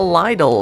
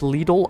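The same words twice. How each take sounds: First: The name is said in a jokey, nonstandard way. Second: The name is said in its usual standard way. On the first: The speaker calls it wrong. "Lidl I pronounced wrong on purpose" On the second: The speaker calls it right. "It's Lidl, I know"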